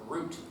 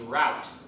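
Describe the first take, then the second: First: The vowel rhymes with 'boot'. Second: The vowel rhymes with 'out'. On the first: It sounds like the root of a tree. "or root" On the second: It cannot be mistaken for a tree's root. "I prefer the pronunciation route because then people don't think I'm talking about trees"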